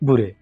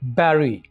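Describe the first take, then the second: First: The first vowel sounds like 'oo'. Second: The first vowel sounds like 'eh'. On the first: The speaker calls it wrong. "ना कि" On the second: The speaker calls it right. "सही तलफ्फुज होगा बैरी"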